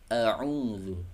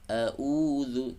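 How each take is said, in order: First: The second consonant is squeezed from the mid throat. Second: The second consonant sounds like a plain glottal stop. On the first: The speaker calls it right. "tapi a'udzu, a'udzu, terasa di tengah tenggorokan" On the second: The speaker calls it wrong. "Jangan a'udzu billahi, a'udzu"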